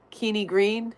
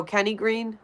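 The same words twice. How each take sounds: First: "Kenny" misread as KEE-nee; misread name. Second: Said in the usual way. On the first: Real, not acted. Streamer puzzling over a viewer's name, misread as Keeny. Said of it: "Who's, oh, Kenny Green".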